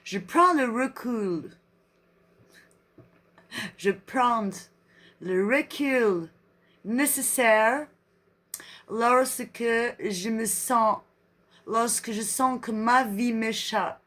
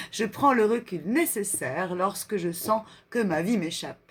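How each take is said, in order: First: Slow French in a put-on English accent; drawn-out mock-English accent. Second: Said in the usual way. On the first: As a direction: read like an English speaker, word by word. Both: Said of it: "Non, l'anglais".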